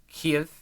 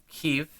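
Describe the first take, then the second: No difference in how they are said.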